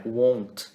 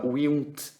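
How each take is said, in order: First: "won't" with a long O, one syllable; correct contraction. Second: "won't" mispronounced as "willn't"; wrong contraction. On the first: Teacher correcting the contraction of will, "won't" pronounced properly with a long O. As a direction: say "won't" as "wohnt", no "will" sound. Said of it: "não é assim, é won't". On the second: Teacher showing students what not to write, "won't" said wrongly as "willn't". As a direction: keep the "will" vowel in "won't", as a mistaken form. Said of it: "não é assim". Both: Shown as a demonstration.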